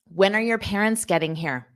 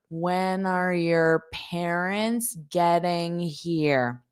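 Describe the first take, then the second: First: The sentence is said quickly, at natural speed. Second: The sentence is said slowly and carefully. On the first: "That's how I would say it fast" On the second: "let me say it slow"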